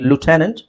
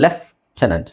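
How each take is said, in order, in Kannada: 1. ಇದು 'loo' ಶಬ್ದದಿಂದ ಶುರುವಾಗುತ್ತೆ, 'f' ಇಲ್ಲ. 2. ಇದು 'left' ಶಬ್ದದಿಂದ ಶುರುವಾಗುತ್ತೆ. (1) "ಅಮೆರಿಕನ್ ಇಂಗ್ಲೀಷಲ್ಲಿ" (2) "ಬ್ರಿಟಿಷ್ ಇಂಗ್ಲೀಷಲ್ಲಿ"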